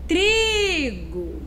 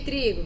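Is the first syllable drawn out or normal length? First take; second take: drawn out; normal length. First: The first syllable is stretched out and stressed. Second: The first syllable is said at normal length. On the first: The speaker calls it right. "que eu me prolonguei um pouco, um pouco mais? Foi na primeira sílaba" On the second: The speaker calls it wrong. "mas eu não vou chamar assim"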